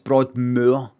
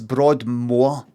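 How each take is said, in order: First: The 'moor' sounds different from 'more'. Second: The 'moor' sounds the same as 'more'. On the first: The speaker calls it right. "I said it's Broadmoor" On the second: The speaker calls it wrong. "she said it's Broadmoor"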